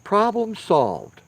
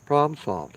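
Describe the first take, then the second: First: High, slow Problem solved, each word stretched out; triumphant, drawn-out Problem solved; slow emphatic. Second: Said in the usual way. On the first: Shown as a demonstration. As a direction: drag out Problem solved like a done deal. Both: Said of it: "Look at that".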